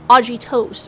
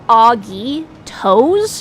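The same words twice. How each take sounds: First: The ending does not sound like toes. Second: The ending sounds like the word toes. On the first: The speaker calls it right. "supposed to be a Greek word, not toes like feet" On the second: The speaker calls it wrong. "they call them Augie toes"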